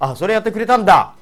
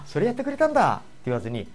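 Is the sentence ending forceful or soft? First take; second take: forceful; soft. First: The ending is said forcefully and abruptly. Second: The ending is said softly and gently. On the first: The speaker calls it wrong. "語尾を強めに投げっぱなしにしてしまうと結構怒ってるように聞こえてしまいます" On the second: The speaker calls it right. "言わずに"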